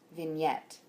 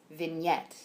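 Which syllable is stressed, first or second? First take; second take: second; second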